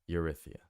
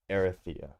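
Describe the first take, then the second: First: The name begins with a 'you' sound. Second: The name begins with an 'eh' sound. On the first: The speaker calls it wrong. "I might be screwing that up" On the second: The speaker calls it right. "So it's more like Erithia"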